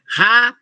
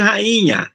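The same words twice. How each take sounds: First: "rainha" split into ra-i-nha with gaps; syllable by syllable. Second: Said in the usual way. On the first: Shown as a demonstration. Teacher isolating the vowel for students, "rainha" syllable by syllable. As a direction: leave the "i" of "rainha" standing alone. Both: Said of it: "Se durante essa separação".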